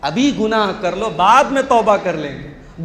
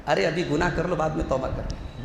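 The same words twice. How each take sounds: First: Said in the usual way. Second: Soft sly coaxing voice, softer; Satan's tempting. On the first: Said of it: "बहुत खतरनाक बात है ये". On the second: Retold or imitated. Satan whispers into the heart, softly coaxing. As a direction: coax quietly like Satan tempting. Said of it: "शैतान दिल में ये बात डालता है".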